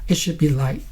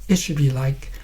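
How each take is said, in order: Both takes have the same delivery.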